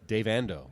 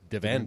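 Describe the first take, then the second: First: The name is said at normal speed. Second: The name is said very fast, run together.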